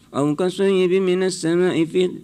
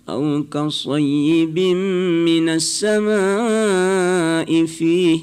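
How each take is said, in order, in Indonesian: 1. Dibaca dengan cepat dan terburu-buru. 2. Dibaca dengan lambat dan merdu. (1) "Jangan ... tidak ada yang perlu diburu" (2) "enak kita dengar ya"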